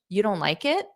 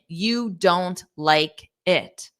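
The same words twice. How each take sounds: First: The voice rises at the end. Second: The voice falls at the end. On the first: It is a question predicting the answer. "I have a rising intonation" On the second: It is a plain statement. "That's a statement"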